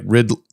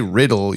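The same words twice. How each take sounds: First: The word's ending is cut off short. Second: The word's ending is fully pronounced. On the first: "you don't just cut it off with this" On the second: "when you say riddle"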